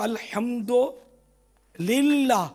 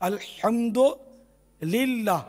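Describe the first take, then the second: No difference in how they are said.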